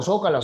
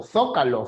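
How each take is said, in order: First: Zócalo said sócalo, z as plain s. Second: Zócalo said θócalo, z as English th; zócalo with theta. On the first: Teacher showing students the Peruvian seseo on zócalo, z as s. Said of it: "todos decimos". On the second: Teacher showing students the Spanish ceceo on zócalo, z as th. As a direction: lisp the z of zócalo like Spain. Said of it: "Aquí nadie dice". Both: Shown as a demonstration.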